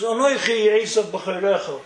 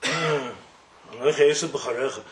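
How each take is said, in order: First: Said in the usual way. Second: "Anoichi Esau b'charecha" said slower and lower, as if reluctant; hesitant lie. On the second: Shown as a demonstration. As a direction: drag out "Anoichi Esau b'charecha" like a son forcing himself to lie.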